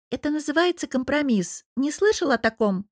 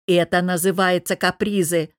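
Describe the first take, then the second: First: Higher-pitched, challenging wife; arch questioning. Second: Husband's irritated snap, moderately raised voice; snapped retort with raised voice. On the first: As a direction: ask it pointedly, pitched up. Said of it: "вскинув бровь, поинтересовалась". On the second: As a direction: snap back, a bit louder. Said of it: "повысив голос, огрызнулся Богдан". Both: A narrator's reading.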